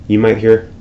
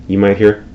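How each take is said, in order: The two takes are said the same way.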